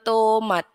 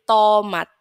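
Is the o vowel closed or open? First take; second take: closed; open. First: The o vowel is closed and rounded. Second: The o vowel is open, not fully closed. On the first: The speaker calls it wrong. "kan bukan tomat" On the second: The speaker calls it right. "tapi tomat"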